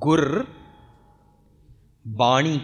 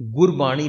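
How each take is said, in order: First: There is a short pause after 'gur'. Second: It is said as one word without a break. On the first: The speaker calls it right. "ਰਾਰੇ ਨੂੰ ਔਂਕੜ ਹੈ ਗੁਰ ਬਾਣੀ ਕਹਿ" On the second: The speaker calls it wrong. "Gurbani ਲਫਜ਼ ਨਹੀਂ ਉਚਾਰਾਂਗੇ"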